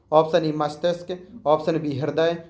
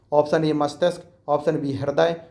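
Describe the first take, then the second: No difference in how they are said.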